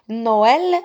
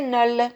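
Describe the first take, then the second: First: The o and e are two separate vowels. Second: The o and e merge into one vowel. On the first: The speaker calls it right. "je prononce no, le o et le e tout seul" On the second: The speaker calls it wrong. "S'il n'y avait pas le tréma, je vais prononcer"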